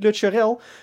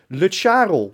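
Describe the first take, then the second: First: The name's ending does not rhyme with Karel. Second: The name's ending rhymes with Karel. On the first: The speaker calls it wrong. "die hebben wij dus al die tijd al verkeerd uitgesproken. Het is niet" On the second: The speaker calls it right. "het moet rijmen op Karel"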